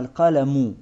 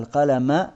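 First: The word ends with an -u vowel. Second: The word ends with an -a vowel. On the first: The pen is the first thing created. "в именительном падеже" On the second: Once the pen was created, it was told to write. "в винительном падеже"

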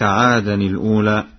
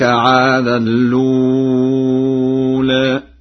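First: The hamza of the second word is pronounced. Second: The hamza drops and the nunation merges into l.

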